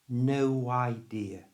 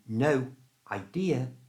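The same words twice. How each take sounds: First: A w sound links no to idea. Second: The two words are said separately without linking.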